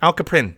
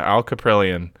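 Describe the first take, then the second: First: The surname is clipped to two syllables. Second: The surname is said in full.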